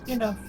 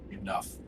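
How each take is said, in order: First: It is said forcefully, with more energy. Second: It is said flatly, with little energy.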